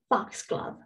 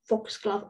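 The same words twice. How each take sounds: First: The first vowel is an open ah sound. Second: The first vowel is a rounded o sound. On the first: "in American English, there is no O sound" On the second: "But in British English, it's foxglove or O"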